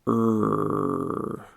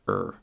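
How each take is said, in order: First: The sound is drawn out very slowly. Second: The sound is said at normal speed. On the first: "first, slow" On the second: "That's normal speed"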